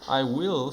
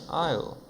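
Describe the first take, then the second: First: Both words are said fully and separately. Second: The words merge into one short syllable. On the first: "Full form" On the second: "E aqui é a contraída"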